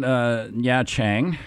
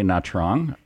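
First: The name is said with a Vietnamese-style pronunciation. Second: The name is said with an English-style pronunciation. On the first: This is how local people say it. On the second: This is how foreigners say it.

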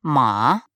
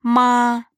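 First: The pitch rises toward the end. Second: The pitch stays high and level. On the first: "второй – «ма»" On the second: "Первый тон – «ма»"

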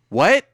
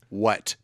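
First: The pitch rises at the end like a question. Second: The pitch falls flat at the end like a statement. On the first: It is asked as a question. The speaker calls it wrong. "not what" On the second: It is said as a flat statement. The speaker calls it right. "Period. No question mark"

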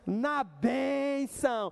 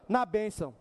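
First: It is said in a cheerful, happy tone. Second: It is said in a glum, unhappy tone.

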